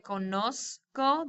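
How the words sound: The z is pronounced like an s sound. "We would say conozco, the z is pronounced like an s"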